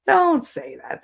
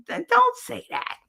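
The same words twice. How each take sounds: First: High start, falling firmly; emphatic protest. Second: Very high-pitched pleading objection; squeaky protest. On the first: Objecting to talk of team's disgrace, firmer falling protest. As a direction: repeat it as a settled scolding. Repeats the protest more composed. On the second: Objecting to talk of team's disgrace, high squeaky protest. Protesting a remark, first take. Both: Real, not acted.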